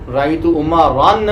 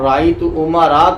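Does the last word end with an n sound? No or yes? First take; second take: yes; no. First: The last word ends with an added n sound. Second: The last word ends in a vowel without n. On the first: The speaker calls it wrong. "नहीं कहेंगे" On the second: The speaker calls it right. "कहेंगे"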